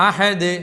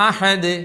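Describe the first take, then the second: Both takes have the same delivery.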